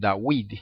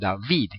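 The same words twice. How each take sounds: First: The name begins with a w sound. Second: The name begins with a v sound. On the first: "ellos dicen David" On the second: "todos dicen David"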